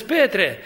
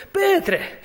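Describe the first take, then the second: First: Said in the usual way. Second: Petre called out much higher. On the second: Acted. Preacher calling Peter by name, high call. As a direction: cry out Petre, pitched way up.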